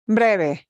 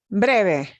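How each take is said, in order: The two takes are said the same way.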